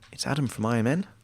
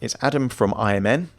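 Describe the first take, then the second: First: The voice rises at the end, like a question. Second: The voice falls at the end, like news reading. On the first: The caller sounds unsure and weak. The speaker calls it wrong. "You're already on a weak foot" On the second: The caller sounds confident and authoritative. The speaker calls it right. "but you're not saying that with upward tonality"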